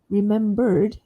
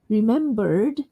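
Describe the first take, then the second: First: It ends with an r-coloured er before the d. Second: It ends with an r-coloured er before the d.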